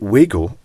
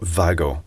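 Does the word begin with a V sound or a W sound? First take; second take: W; V. First: The word begins with a W sound. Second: The word begins with a V sound. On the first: The speaker calls it wrong. "many people say Wago" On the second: The speaker calls it right. "Vago is the correct pronunciation"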